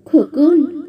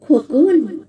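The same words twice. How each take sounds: First: Put-on sweetly calling out a child; lilting, slightly raised sweet female call; sweet woman's call. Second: Lightly mimicked female call; imitated woman's voice. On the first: Unseen woman calls the boy at night, sweetly. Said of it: "সুমিষ্ট স্বরে কেউ যেন ডেকে ওঠে". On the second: Shadowy figure lures the boy, imitating a woman's call. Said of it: "সেই নারী কণ্ঠ নকল করে ডাকে". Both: A narrator's reading.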